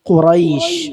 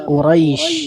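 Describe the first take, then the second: Both takes have the same delivery.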